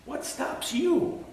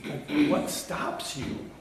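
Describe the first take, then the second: First: Much higher, slow rising question; a high, slow searching repeat; high pleading question. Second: Breathy whisper, slow; hushed, searching whisper; whispered question. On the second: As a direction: lean in and whisper it slowly. Repeated rhetorical question. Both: Acted.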